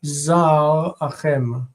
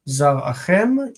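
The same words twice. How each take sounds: First: "zar achem" said slowly, with a clear break after zar; slow syllable demo. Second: Said in the usual way. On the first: Shown as a demonstration. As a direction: pull "zar achem" apart, zar first, then achem. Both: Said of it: "here we see the original form".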